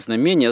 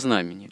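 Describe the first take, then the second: First: The stress is on the second syllable. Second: The stress is on the first syllable. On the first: The speaker calls it wrong. "Не знамение" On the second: The speaker calls it right. "а знамени"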